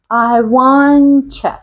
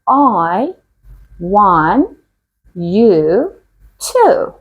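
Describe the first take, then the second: First: The words run together in a reduced form. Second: Each word is said fully and separately. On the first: "In American English, it is pronounced" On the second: "you say, I want you to"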